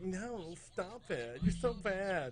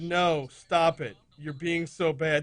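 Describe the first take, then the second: First: It is said in a playful, teasing tone. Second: It is read out flatly and seriously.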